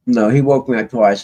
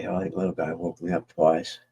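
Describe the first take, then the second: First: "he" pushed, louder; louder correction, leaning on "he"; correcting himself. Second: Said in the usual way. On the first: Real, not acted. Telling viewers about his night, correcting himself louder, stress on "he".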